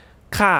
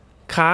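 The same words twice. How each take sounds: First: ค่ะ with the pitch starting high and falling. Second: คะ stretched out and rising high at the end. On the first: Teacher showing the different tones, falling tone on ค่ะ. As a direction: let ค่ะ drop in a falling tone. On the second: Teacher showing the different tones, high rising tone on คะ. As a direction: lift คะ upward like a question. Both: Shown as a demonstration. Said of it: "the different tones".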